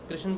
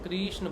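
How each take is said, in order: First: The word is said quickly with a short 'ri'. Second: The word is said slowly with a lengthened 'ri'. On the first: The speaker calls it wrong. "ये जल्दी जल्दी बोल दिया" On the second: The speaker calls it right. "अगर हम धीरे बोलेंगे तो कृष्ण बोलेंगे, री को डबल मात्रा"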